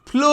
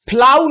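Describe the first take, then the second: First: The vowel sounds like 'oh'. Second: The vowel sounds like 'ow'. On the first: The speaker calls it right. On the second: The speaker calls it wrong.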